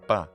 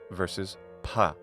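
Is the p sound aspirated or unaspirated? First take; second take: unaspirated; aspirated. First: The p has no puff of air. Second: The p has a puff of air.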